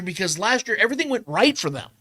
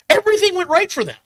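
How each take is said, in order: First: Said in the usual way. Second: "Everything" thrown up high with a strong falling close; much higher, hammering "Everything went right for them"; emphatic repeat. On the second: Real, not acted. Host insisting to Trevor, "Everything" pitched high and punched.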